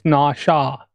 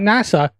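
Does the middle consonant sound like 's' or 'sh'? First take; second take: sh; s. First: The middle consonant is an 'sh' sound. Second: The middle consonant is a plain 's' sound. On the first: The speaker calls it right. "it's Nasha" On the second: The speaker calls it wrong. "Not NASA"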